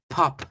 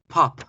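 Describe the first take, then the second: Both takes have the same delivery.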